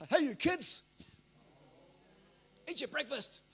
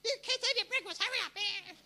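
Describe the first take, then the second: First: Put-on loud dad calling out to the kids; raised, commanding fatherly voice; manly fatherly voice. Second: Very high, loud nagging mum; hammed-up high-pitched mother yelling orders; mother's authoritative voice. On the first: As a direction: put on a forceful father's order. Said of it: "put on the manly, fatherly voice". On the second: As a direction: screech it like a mum hurrying the kids. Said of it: "She puts on her authoritative voice".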